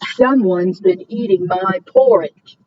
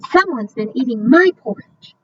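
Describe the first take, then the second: First: It is said in a big, deep voice. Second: It is said in a medium-sized voice.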